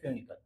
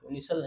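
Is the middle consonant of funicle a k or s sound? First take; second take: k; s. First: The middle consonant is a k sound. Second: The middle consonant is an s sound. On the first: The speaker calls it right. "फ्यूनिकल बोलेंगे ना" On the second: The speaker calls it wrong. "फ्यूनिसल नहीं"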